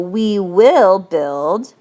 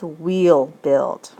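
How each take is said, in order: First: Will is said as a full separate word. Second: Will is contracted and joined to we. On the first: "So we will build becomes" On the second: "will is usually contracted to ul in speaking"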